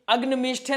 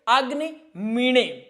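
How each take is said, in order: First: The second word has a 'shth' consonant cluster. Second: The second word has a nasal 'n'-like consonant. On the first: The speaker calls it wrong. "कुछ लोग इसको मीष्ठे पढ़ते हैं" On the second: The speaker calls it right. "इसका प्रयोग एणे में होता है"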